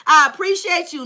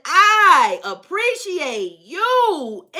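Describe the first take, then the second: First: Said in the usual way. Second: Very slow, stretched singsong; long swooping "I appreciate you"; drawn-out appreciation. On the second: Retold or imitated. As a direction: linger lavishly on each word. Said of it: "That baby said".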